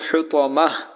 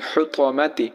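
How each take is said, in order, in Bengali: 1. শব্দটি h ধ্বনি দিয়ে শেষ হয়। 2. শব্দটি t ধ্বনি ও স্বরধ্বনি দিয়ে শেষ হয়।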